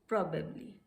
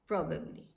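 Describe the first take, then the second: No difference in how they are said.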